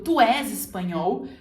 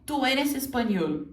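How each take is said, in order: First: "Tu és espanhol" with open Portuguese és and nasal espanhol; wrong Brazilian version. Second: "Tu eres español" with tapped r in eres and clear ñ; correct Spanish. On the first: Teacher models the common mistake: "Tu és espanhol" Portuguese-style. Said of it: "você errou". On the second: Teacher models the correct answer: "Tu eres español" in Spanish. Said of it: "O correto é". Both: Shown as a demonstration.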